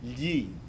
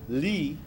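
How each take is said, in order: First: It begins with a palatal lateral sound. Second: It begins with a plain L sound. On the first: The speaker calls it right. "Listen to the difference between li and gli" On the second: The speaker calls it wrong. "You're substituting an L"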